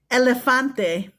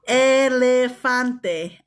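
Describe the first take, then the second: First: Said in the usual way. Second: Elefante drawn out slowly, every syllable clear; slow careful repeat. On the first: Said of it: "teacher models word twice". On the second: Shown as a demonstration. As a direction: spell out Elefante slowly for the kids. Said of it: "slow repeat for learners".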